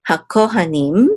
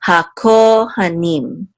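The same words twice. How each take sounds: First: Said in the usual way. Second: Hakohanim slowly, ko held long, ha kept short; ha syllable unaccented. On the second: Shown as a demonstration. Teacher warning about the reduced syllable, hakohanim slow with long ko. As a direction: draw out ko and nim in hakohanim, never the middle ha. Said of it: "not accent this syllable for sure".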